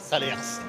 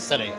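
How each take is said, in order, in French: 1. Le S final est prononcé. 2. Le S final est muet. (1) "On dit pas Salers" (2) "on dit salaire"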